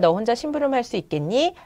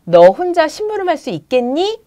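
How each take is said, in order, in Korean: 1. 밋밋하게 읽었고, 연기는 하지 않았어요. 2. 생생하게 연기하며, 묻는 듯한 억양으로 읽었어요. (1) "보통 이렇게 읽어주시거든요" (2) "끊어읽기라던가 어조를 느낌 살려서 제스처와 함께 해주면"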